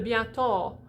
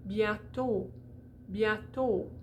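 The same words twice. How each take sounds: First: Bientôt ending in a wide "aw"; open O. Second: Bientôt ending in a tight "oh"; closed O. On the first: Teacher showing the wrong vowel, open O. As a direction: say "bientôt" with an "ah" plus lips at the end. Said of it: "that would be open". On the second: Teacher demonstrating closed O, rounded tight vowel. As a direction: say "bientôt" as if round a marble, lips more closed. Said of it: "a little more closed". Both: Shown as a demonstration.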